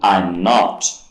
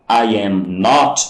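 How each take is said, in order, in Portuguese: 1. "I" e "am" são unidos em uma só sílaba. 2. "I" e "am" são ditos como palavras separadas.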